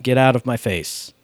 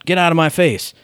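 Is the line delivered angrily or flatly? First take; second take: flat; angry. First: The line is delivered flat, without anger. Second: The line is delivered with real anger. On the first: The speaker calls it wrong. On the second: The speaker calls it right.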